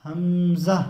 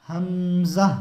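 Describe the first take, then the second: First: हमज़ा said louder without an h, the wrong way; wrong hamza. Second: हमज़ा with a clear h at the start, louder; correct hamza. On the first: Teacher to viewers, the mistaken हमज़ा. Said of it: "बहुत से लोग कह देते हैं हमज़ा". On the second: Teacher to viewers, the correct हमज़ा. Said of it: "हा दो चश्मिया छोटी हा लगी हुई". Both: Shown as a demonstration.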